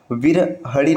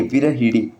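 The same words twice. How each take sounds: First: विरहड़ी slowly, with "ha"; wrong form. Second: विरहिड़ी with "hi" before last syllable; correct form. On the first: Teacher citing the rejected form, slow "ha" in विरहड़ी. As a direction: say विरहड़ी slowly as "viraha-ree". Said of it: "विरहड़ी नहीं". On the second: Teacher giving the correct form, "hi" in विरहिड़ी. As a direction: say विरहिड़ी as "virahi-ree". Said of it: "ये शुद्ध रूप है". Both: Shown as a demonstration.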